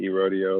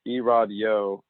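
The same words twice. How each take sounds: First: "E-Rodeo" said like E plus the word rodeo; common mispronunciation. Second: "E-Rod Yo" said as E-Rod plus a separate Yo; correct name pronunciation. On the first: Retold or imitated. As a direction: run "E-Rodeo" together as ee-ROH-dee-oh. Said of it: "a lot of people like to say". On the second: Shown as a demonstration. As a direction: say "E-Rod Yo" with ROD as its own syllable, then YO. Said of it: "it's pronounced E-Rod Yo".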